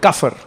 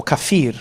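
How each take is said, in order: First: "kafir" stressed on the first syllable; first form of "kafir". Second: "kafir" with a long "ee" sound; second form of "kafir". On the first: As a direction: say "kafir" with a short, unstressed ending. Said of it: "the word we had was the word". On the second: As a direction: say "kafir" as ka-FEER, stressing the end. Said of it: "was the word kafir or kafir". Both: Shown as a demonstration.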